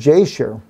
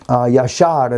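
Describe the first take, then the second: First: The name begins with an English J sound. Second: The name begins with a Y sound.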